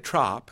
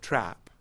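First: The vowel is a broad, open 'ah' sound. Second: The vowel is a short, flat 'a' sound. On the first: The speaker calls it wrong. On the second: The speaker calls it right.

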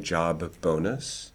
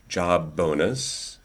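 First: The b in job releases into a slight vowel. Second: The b in job has no added vowel.

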